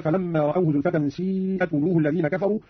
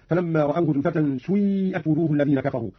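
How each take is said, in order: First: Said in the usual way. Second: سيئت begun with u gliding into ī, "suī'at"; ishmam. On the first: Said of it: "قرأ قانون بالإشمام". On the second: Shown as a demonstration. Teacher demonstrating Qalun, سيئت with u-tinted ī. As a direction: round the first vowel of سيئت toward u. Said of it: "قرأ قانون بالإشمام هكذا".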